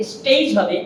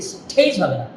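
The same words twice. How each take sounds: First: Said in the usual way. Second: স্টেজ said with a puff on the t, lower; the wrong breathy স্টেজ; wrong aspirated t. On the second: Shown as a demonstration. (ভুল উচ্চারণ: স্ঠেজ)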